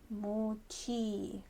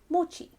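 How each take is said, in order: First: The final vowel is held long. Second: The final vowel is short. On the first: This is the older name for the rice cake. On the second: This is the later name for the rice cake.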